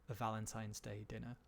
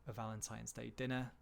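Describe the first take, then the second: Both takes have the same delivery.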